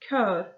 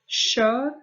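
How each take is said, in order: First: The word begins with a hard k sound. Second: The word begins with a soft sh-like sound. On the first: It means a choir. "the K sound" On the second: It means to drive. "the tjugo sound"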